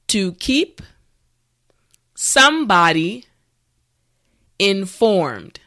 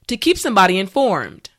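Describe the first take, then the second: First: The words are spoken slowly. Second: The words are spoken at normal speed. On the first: "repeat after me" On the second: "let's say it at a normal pace"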